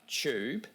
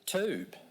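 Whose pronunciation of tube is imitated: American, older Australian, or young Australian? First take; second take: young Australian; American. First: Tube in a young Australian speaker's pronunciation. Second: Tube in an American pronunciation. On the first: "many young people say tube" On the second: "many Americans say tube"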